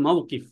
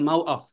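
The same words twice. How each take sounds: First: মাওকিফ with a sounded k, "maw-qif"; standard Arabic pronunciation. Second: মাওআফ with a glottal catch, "maw-af"; Egyptian pronunciation. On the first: Teacher giving the word for bus stand, মাওকিফ with its q sounded. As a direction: say মাওকিফ with the middle consonant fully sounded. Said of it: "এটাকে বলে মাওকিফ". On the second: Teacher showing Egyptian Arabic, মাওআফ with hamza replacing q. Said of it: "মিশরি আরবিতে বলবে". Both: Shown as a demonstration.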